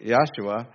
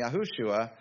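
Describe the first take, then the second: First: Yahshua without the middle "hu"; pronounced Yahshua. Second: Yahushua with an added "hu" in the middle; pronounced Yahushua. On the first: Telling of family's former wording, pronounced Yahshua. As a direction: say Yahshua as Yah-shua, set apart by a pause. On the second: Telling of family's changed wording, pronounced Yahushua. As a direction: say Yahushua as Ya-HOO-shua. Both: Shown as a demonstration. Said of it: "they were saying Yahushua instead of".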